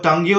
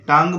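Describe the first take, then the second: First: An extra 'u' sound follows the 'ng'. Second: The word ends cleanly on the 'ng'. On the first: The speaker calls it wrong. "इसको टंग यू नहीं बोलें" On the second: The speaker calls it right. "टंग बोलना है आपको"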